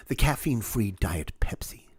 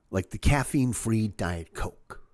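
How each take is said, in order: First: "The caffeine-free Diet Pepsi" whispered as if shameful; a scornful whisper; whispered disdain. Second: Said in the usual way. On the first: Shown as a demonstration. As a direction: hush "caffeine-free" like a dirty secret. Listing decaf sodas.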